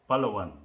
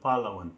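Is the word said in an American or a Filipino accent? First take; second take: Filipino; American. First: It is said with a Filipino accent. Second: It is said with an American accent. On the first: "But if you are Filipino" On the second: "if you are speaking as a in American"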